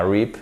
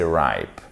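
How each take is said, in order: First: Rip with a short I; short clipped rip; wrong rip. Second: Ripe with a long diphthong; correct ripe. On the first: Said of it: "C'est pas rip". (rip, I court) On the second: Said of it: "c'est ripe". (ripe, voyelle longue) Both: Shown as a demonstration.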